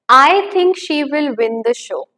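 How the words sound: The stress falls on the word I.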